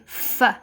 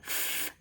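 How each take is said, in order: First: The f is followed by an extra vowel sound. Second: The f is said alone, with no vowel after. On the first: The speaker calls it wrong. "they may say f" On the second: The speaker calls it right. "Instead of saying f"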